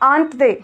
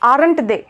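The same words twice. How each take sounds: First: Aren't is said like the word aunt. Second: Aren't is not said like the word aunt. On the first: The speaker calls it right. "We call it aren't they. ... Auntieలో aunt ఉంటుంది కదా, just like that" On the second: The speaker calls it wrong. "Please don't say"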